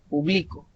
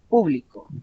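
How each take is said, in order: First: The stress is on the second syllable. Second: The stress is on the first syllable. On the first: I publish something, in the present. "la sílaba tónica está en medio" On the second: A crowd of people, an audience. "la sílaba tónica en el pu"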